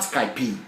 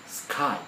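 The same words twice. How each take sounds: First: An extra E vowel is added at the end. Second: It ends on the consonant with no extra vowel. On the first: The speaker calls it wrong. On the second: The speaker calls it right.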